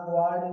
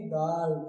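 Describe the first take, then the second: First: गार्ड misread with a w glide, "gwaard"; wrong u sounded. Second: गार्ड said "gaard"; no w glide in गार्ड; silent u. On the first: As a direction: slip a w after the g of गार्ड. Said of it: "नहीं बोलेंगे". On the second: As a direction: say गार्ड with g straight into long aa. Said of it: "क्या बोलेंगे?". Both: Shown as a demonstration.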